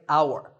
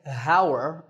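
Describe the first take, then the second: First: The word begins with no h sound. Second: The word begins with an h sound. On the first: The speaker calls it right. "that H is silent" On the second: The speaker calls it wrong. "We don't say hour"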